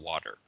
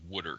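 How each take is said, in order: First: Water is said with a standard accent. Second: Water is said with a Philadelphia accent.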